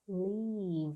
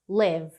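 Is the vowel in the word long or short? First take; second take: long; short. First: The vowel is a long, spread, smiling ee. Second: The vowel is a short, closed, relaxed i. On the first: The speaker calls it wrong. "Ficam com vontade de exagerar esse i, de fazer o i sorridente, e não é esse i sorridente, então não é live" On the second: The speaker calls it right. "A pronúncia disso aqui é live, live... é um izinho fechado"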